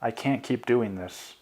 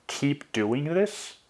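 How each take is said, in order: First: Said in the usual way. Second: "Keep doing this" drawn out slowly, climbing high at the end; slow, rising disbelief on "Keep doing this"; incredulous echo question. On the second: A narrator's reading. Boyfriend throws girlfriend's words back, "Keep doing this" as incredulous rising question.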